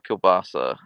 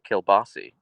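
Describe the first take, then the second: First: The word ends with an 'ah' sound. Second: The word ends with an 'ee' sound.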